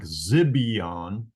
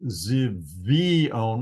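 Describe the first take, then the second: First: The middle consonant is a b sound. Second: The middle consonant is a v sound. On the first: The speaker calls it wrong. "instead of a B sound like Zibion" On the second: The speaker calls it right. "I pronounce it Zivion with a V sound"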